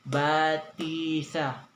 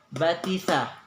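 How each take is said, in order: First: One vowel is drawn out long. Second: All the vowels are kept short. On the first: The speaker calls it wrong. "Hindi pwedeng batisa" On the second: The speaker calls it right. "plain lang po talaga siya"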